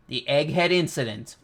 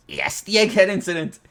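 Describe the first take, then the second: First: Said in the usual way. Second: Higher and louder, "Egghead" hyped up; excited. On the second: Real, not acted. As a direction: cheer out "Egghead incident" like a fan.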